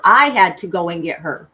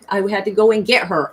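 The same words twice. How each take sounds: First: "I" punched loud; stress on I. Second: Said in the usual way. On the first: Real, not acted. Telling how she herself rescued the fairy, stress on "I". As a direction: hit the word "I" hard, then ease off. Repeats line stressing who went.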